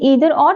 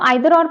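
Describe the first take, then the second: First: The first vowel of 'either' sounds like 'ee'. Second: The first vowel of 'either' sounds like 'eye'. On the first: "चाहे ईदर और, both are acceptable" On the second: "चाहे आप इसको आइदर और pronounce कर लो"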